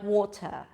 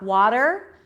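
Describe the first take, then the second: First: It has a crisp T and no final R. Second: It has a flapped T and a final R. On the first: The speaker calls it right. "It would be more like water, t" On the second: The speaker calls it wrong. "it's not water"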